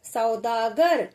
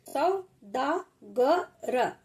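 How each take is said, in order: First: Said in the usual way. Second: सौदागर stretched very slowly, each part separate; slow teacher demo; slow sounding-out. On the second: Shown as a demonstration. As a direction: draw out सौदागर for pupils. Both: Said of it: "teacher sounds out word".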